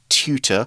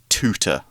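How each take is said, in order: First: The word is said with a British accent. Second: The word is said with an American accent. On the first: "I'm from the U K, so I'm more likely to say tutor" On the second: "in the States people would say tutor. It's more of a heavy T"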